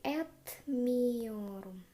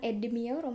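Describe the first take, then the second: First: The consonant before the m is a voiceless t. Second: The consonant before the m is a voiced d. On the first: The speaker calls it right. "tapi etmiorum" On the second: The speaker calls it wrong. "kalau ini bukan edmiorum ya"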